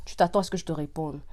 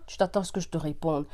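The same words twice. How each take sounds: The two takes are said the same way.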